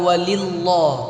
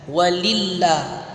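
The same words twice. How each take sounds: First: The L of Allah is heavy and thick. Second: The L of Allah is light and thin. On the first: The speaker calls it wrong. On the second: The speaker calls it right. "dibaca ti tipis ya"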